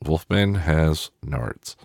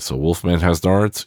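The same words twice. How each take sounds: First: Slow, falling, each word weighed out; slow, deadpan. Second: Nards lifted like a question; questioning rise. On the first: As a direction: land it slowly as a flat verdict. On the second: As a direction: toss it off as a quizzical aside. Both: Shown as a demonstration.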